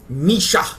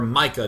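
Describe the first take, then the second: First: The name has a 'sh' sound in the middle. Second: The name has a 'k' sound in the middle. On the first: "Misha is how you say it if it's a German name" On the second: "Micah is how you might say it in American"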